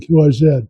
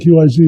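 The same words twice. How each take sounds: First: The last letter is pronounced 'zed'. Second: The last letter is pronounced 'zee'. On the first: "they'll say" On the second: "They won't say"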